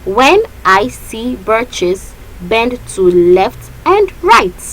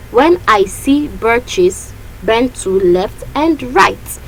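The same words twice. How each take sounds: First: Slow, syllable by syllable; measured metre reading; counting the beats. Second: Slow, beat by beat; scanning the line aloud; repeated metre count. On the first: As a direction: spell out each stress of "When I see birches". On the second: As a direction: read "bend to left and right" stressing each beat. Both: Shown as a demonstration. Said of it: "Let's count the first line".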